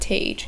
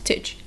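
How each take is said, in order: First: The syllable has a full, drawn-out vowel. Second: The syllable is quick with a reduced vowel. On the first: The speaker calls it wrong. "so it's not tage" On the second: The speaker calls it right. "that tij sound that is very quick"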